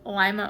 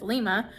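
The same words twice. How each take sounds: First: It is pronounced like the bean. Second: It is pronounced the way other countries say it. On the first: This is the town in Ohio. "Lima, Ohio is spelled like lima bean" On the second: This is the name as used in other countries. "but in other countries it's Lima"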